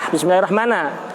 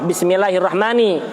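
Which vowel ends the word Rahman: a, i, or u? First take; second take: a; i. First: The word ends with an a vowel. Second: The word ends with an i vowel. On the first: The word is in the accusative case. "Apabila dibaca fathah" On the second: The word is in the genitive case. "Apabila yang pertama dibaca kasroh"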